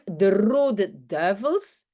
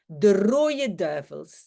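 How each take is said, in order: First: The word rode is pronounced in full. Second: Rode is reduced to rooie, with no n. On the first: "Au lieu de dire" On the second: "je n'ai pas besoin de lier rooie à une voyelle"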